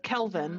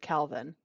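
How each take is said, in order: First: The first vowel sounds like the vowel in bed. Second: The first vowel sounds like the vowel in cat. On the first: This is how the spelling reads. "It's Kelvin" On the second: This is how the parents pronounce it. "they pronounce it Calvin"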